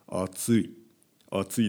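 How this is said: It is said flatly with a low voice. The speaker shows no feeling. "低い声で言いますね"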